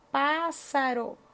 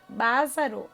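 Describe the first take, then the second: First: The middle consonant is a hissing S sound. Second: The middle consonant is a buzzing Z sound. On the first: The speaker calls it right. "para ter o som de S" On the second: The speaker calls it wrong. "se tivesse um S só"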